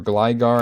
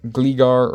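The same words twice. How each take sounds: First: Gligar said as GLY-gar, long i; first vowel of Gligar as in "eye"; GLY-gar pronunciation. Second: Gligar said as GLEE-gar, long ee; first vowel of Gligar as in "see"; GLEE-gar pronunciation. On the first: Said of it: "a lot of people would say Gligar". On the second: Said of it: "I think it's Gligar". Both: Shown as a demonstration.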